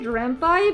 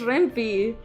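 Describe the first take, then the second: First: The last syllable sounds like 'pie'. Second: The last syllable does not sound like 'pie'. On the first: "I usually pronounce it Rampai because the pi is from Python" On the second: "it's pronounced Rampi"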